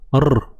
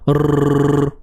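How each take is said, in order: First: The r is trilled with a single tap. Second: The r is trilled with two taps. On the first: "Satu getaran begini" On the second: "Kalau dua"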